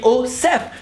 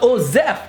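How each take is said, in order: First: The middle consonant is a hissing S sound. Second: The middle consonant is a buzzing Z sound. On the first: The speaker calls it right. "it's a S. So it should be Osef" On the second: The speaker calls it wrong. "It's not a Z"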